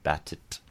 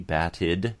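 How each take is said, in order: First: The word ends with a voiceless t sound. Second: The word ends with a voiced d sound. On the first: The speaker calls it wrong. "instead of batit" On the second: The speaker calls it right. "that allows us to make it a D, batted"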